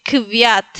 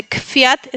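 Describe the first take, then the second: First: "kviat" with a voiced V after K. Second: "kfiat" with an unvoiced F after K. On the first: Teacher shows harder option, "kviat" with V. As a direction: voice the V in "kviat" instead of F. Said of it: "es más fácil decir kfiat que kviat". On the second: Teacher explains easier sound, "kfiat" with F. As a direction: say "kfiat" with F, not V. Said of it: "es más fácil pronunciar la F". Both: Shown as a demonstration.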